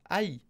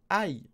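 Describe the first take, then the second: No difference in how they are said.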